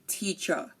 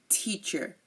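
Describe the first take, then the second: First: The final R is silent. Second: The final R is pronounced. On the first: "and they say teacher" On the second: "and we say teacher"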